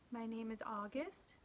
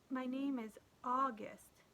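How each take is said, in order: First: It is mumbled quietly. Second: It is said louder and clearer.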